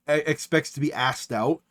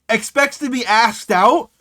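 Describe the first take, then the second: First: Said in the usual way. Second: Higher, slower, rising in disbelief; drawn-out scandalised echo; incredulous repeat. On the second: Acted. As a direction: quote it back as if it's absurd.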